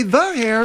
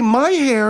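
First: THE singled out in "the hair"; pointed, deliberate "the" before "hair"; stress on THE. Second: MY singled out in "my hair"; pointed "my", then falling "hair"; stress on MY. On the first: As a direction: quote it with weight on "the". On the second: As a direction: quote it with weight on "my". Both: Shown as a demonstration. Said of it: "When you say".

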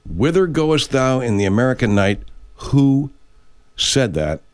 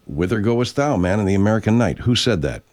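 First: Dramatic quiz question. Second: Said in the usual way. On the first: Shown as a demonstration. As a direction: pose it grandly, pausing after WHO. Quiz question repeated for effect.

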